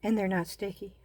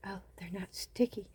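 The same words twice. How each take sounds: First: Said in the usual way. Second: Hushed repeat. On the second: Real, not acted.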